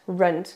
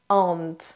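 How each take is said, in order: First: An R sound is heard before the vowel. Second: No R sound is heard before the vowel. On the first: The speaker calls it wrong. "il n'y a pas de runt" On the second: The speaker calls it right. "c'est ant"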